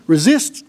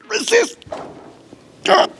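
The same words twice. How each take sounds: First: Said in the usual way. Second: Resist jumps way up in a squeak; squeaky high resist. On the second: Acted. Pushing down on volunteer's arm.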